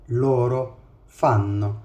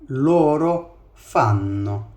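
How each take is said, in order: The two takes are said the same way.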